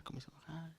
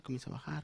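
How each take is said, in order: First: "comienza a bajar" almost whispered, nearly gone; barely audible. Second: "comienza a bajar" said much softer, sinking. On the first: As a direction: let "comienza a bajar" die to a murmur. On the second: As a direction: drop the volume on "comienza a bajar". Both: Shown as a demonstration. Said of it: "Y ya solo se oye un susurro".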